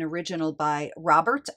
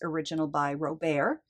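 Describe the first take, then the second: First: Robert is given an Americanized pronunciation. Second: Robert is given a non-American pronunciation. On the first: "I have a tendency to Americanize pronunciations" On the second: "but officially it is"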